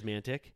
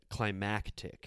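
First: It is said with an n sound: 'climantic'. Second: It is said with a c sound: 'climactic'. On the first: The speaker calls it wrong. "he says mantic" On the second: The speaker calls it right. "which is the right way to say it"

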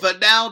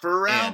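First: The middle consonant of the name is N. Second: The middle consonant of the name is R. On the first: The speaker calls it right. "Fennell, not Pharrell. N" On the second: The speaker calls it wrong. "not Pharrell"

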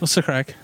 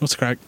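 First: The phrase is said with clearer, fuller sounds. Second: The phrase is said with more reduced, slurred sounds.

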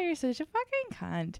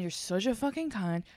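First: It is said in a light, playful tone. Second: It is said in a harsh, insulting tone. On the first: It is claimed to have been only a joke. "And just changing the tone" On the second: It is meant as a real insult. "say it in front of people like that"

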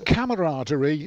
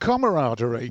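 First: It begins with a 'camera'-like sound. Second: It begins with a 'comrade'-like sound. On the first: The speaker calls it right. "It's camaraderie" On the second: The speaker calls it wrong. "not camaraderie"

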